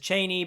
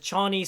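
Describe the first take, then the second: First: The name sounds like 'Chay-nee'. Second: The name sounds like 'Chah-nee'. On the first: This is how the audiobook narrator says it. "Simon Vance, the narrator of the Dune audiobook, says Cheney" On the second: This is how the movie says it. "but the movie says Chani"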